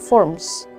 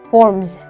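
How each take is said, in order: First: The word ends with an s sound. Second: The word ends with a z sound. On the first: The speaker calls it wrong. "itu bukan forms" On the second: The speaker calls it right. "belakangnya bukan s tapi z"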